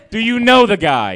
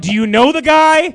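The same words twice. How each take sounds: First: Said in the usual way. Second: Higher pleading question. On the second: Real, not acted.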